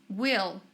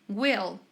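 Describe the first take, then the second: Both takes have the same delivery.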